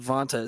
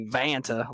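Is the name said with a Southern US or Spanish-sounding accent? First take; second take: Spanish; Southern US. First: The name is said with a Spanish-sounding accent. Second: The name is said with a Southern US accent. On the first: The speaker calls it right. "you say Vanta, it sounds really nice" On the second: The speaker calls it wrong. "I say Vanta like I just crawled out from under a rock"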